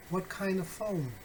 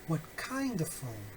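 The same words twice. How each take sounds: First: WHAT, KIND and PHONE stressed, falling at the end; stress on content words. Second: KIND stands out, "of phone" falls away; stress on KIND. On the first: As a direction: give "what", "kind" and "phone" each a beat. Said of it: "assigning emphasis, uh, to the content words". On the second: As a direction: punch "kind" as the new word. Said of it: "assigning stress or emphasis to the new content words". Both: Shown as a demonstration.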